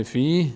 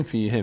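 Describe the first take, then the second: First: فی held long, closed on a breath of h with no vowel; stopping form. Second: فیه with a short "e" after the h; continuing form. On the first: Teacher showing the word at a stop, pausal form. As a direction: end فی on a still h. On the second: Teacher showing the word when reading on, vowelled ending. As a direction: say "fii-he" for فیه, last vowel sounded. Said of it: "اگه ادامه بدیم". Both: Shown as a demonstration.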